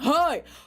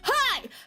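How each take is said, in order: First: A deep shout like older dudes. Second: A strained scream from the bottom of the throat.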